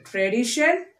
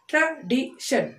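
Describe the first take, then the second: First: Said in the usual way. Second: TRADITION slowly as tra, di, shun; three separate beats on TRADITION; split into syllables. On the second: Shown as a demonstration. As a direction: pause between each syllable of TRADITION. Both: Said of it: "Three syllable words".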